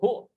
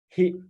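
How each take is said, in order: First: The pronoun ends with an 'oo' vowel. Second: The pronoun ends with an 'ee' vowel. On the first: "Sometimes they will pronounce it oh, who" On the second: "or sometimes they will add- pronounce it as he"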